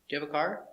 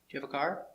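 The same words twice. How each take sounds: Both takes have the same delivery.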